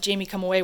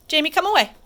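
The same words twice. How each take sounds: First: Said in the usual way. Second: Raised call, higher and louder; calling dog away. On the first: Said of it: "I said". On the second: Real, not acted. Trainer calling her dog away from the other dog, higher and louder. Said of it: "I said, "Jamie, come away".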